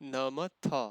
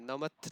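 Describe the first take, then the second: First: The final 'a' vowel is fully pronounced. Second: The final 'a' vowel is dropped. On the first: The speaker calls it right. "पूरा बोलना है" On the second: The speaker calls it wrong. "नमथ नहीं"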